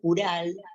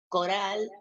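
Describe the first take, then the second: First: It has a u and a tapped r. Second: It has an o and a tapped r. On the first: "pronunciaban sus nombres de la manera que ellos podían" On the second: "pronunciaban sus nombres de la manera que ellos podían"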